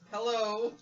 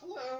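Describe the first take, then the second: First: It is said loudly. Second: It is said quietly.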